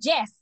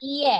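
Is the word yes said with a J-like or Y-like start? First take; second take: J-like; Y-like. First: It starts with a J-like sound. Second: It starts with a Y-like sound. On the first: The speaker calls it wrong. "Si in English is not yes" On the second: The speaker calls it right. "it is yes"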